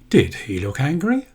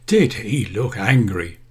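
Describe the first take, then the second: First: It is said like a real question. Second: It is said like an exclamation, not a question. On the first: The speaker really wants an answer. "if I say that in a different way, it does form as a question" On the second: The speaker is remarking, not asking. "I'm just making an exclamation and a general statement"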